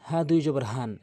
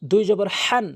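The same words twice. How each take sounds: First: Relax the throat on the H of "হান"; light plain ha. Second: "হান" with a raspy pharyngeal H, louder; tight-throat ha. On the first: Teacher contrasting similar letters, open-breath H in "হান". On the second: Teacher contrasting similar letters, tight-throated H in "হান". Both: Shown as a demonstration. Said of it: "হরফের উচ্চারণের পার্থক্য".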